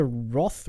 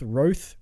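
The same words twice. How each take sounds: First: "Roth" with an open aw vowel, like "cloth"; alternative surname pronunciation. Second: "Roth" with a long oh vowel, like "both"; alternative surname pronunciation. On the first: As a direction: say "Roth" to rhyme with "moth". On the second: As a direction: say "Roth" to rhyme with "growth". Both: Shown as a demonstration. Tries two pronunciations of the surname.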